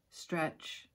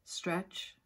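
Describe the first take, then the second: No difference in how they are said.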